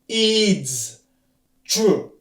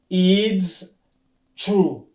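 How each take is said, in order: First: It is contracted into one short syllable. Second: It is contracted into one short syllable.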